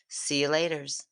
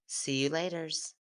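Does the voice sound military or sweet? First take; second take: military; sweet. First: It is said in a stern military voice. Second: It is said in a very sweet voice.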